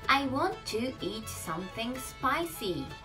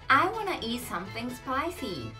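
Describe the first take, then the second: First: Each word is said separately, as if read aloud. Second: The words run together smoothly, like native speech. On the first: The speaker calls it wrong. "it's actually reading English" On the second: The speaker calls it right. "natives say it more like B"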